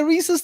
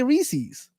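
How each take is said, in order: First: Reese's said as REE-siz; Reese's ending like "pieces". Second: Reese's said as REE-seez; Reese's with both vowels as ee; Reese-eez. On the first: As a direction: end Reese's on a short, weak vowel, REE-siz. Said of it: "I say Reese's too". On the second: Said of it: "I hear some people say". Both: Shown as a demonstration.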